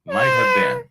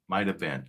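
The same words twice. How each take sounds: First: Tiny squeaky high cat voice; kitten voice. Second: Said in the usual way. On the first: Pretend. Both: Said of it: "Was [name] talking like a cat".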